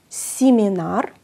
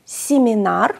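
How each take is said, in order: First: "Σιμινάρ" drawn out slowly, rising; slow "Σιμινάρ" syllable by syllable; slow Russian pronunciation. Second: "Σιμινάρ" at normal pace, rising; Russian pronunciation. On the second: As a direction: say "Σιμινάρ" with i in both syllables. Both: Shown as a demonstration. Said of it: "η πρώτη συλλαβή ... φωνητικό ι".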